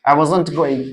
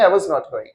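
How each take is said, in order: First: 'Was not' is squeezed into one contracted word. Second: 'Was' and 'not' are said as two words. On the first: "मैं ये नहीं कह रहा हूं I वाजंट ही बोलो" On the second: "हमेशा I वाज नॉट going भी कह सकते हो आप"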